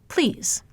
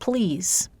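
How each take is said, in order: First: The L sound is voiceless. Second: The L sound is fully voiced. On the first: "I could de-voice that L" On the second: "with an ordinary voice style"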